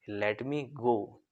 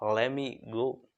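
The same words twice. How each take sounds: First: Let and me are said as two separate words. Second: Let and me blend into one word, lemme. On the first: "तो sentence कैसे बनता है" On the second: "लेकिन आप कैसे बोल सकते हो"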